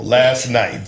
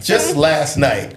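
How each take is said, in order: First: Said in the usual way. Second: Slowed down, leaning on just; emphatic repeat. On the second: Shown as a demonstration. Insisting to friends it was just last night, slow emphatic. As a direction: stretch it out to insist.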